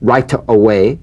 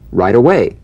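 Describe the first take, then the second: First: The T in right is a crisp, full T. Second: The T in right is softened toward a D. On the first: The speaker calls it wrong. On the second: The speaker calls it right.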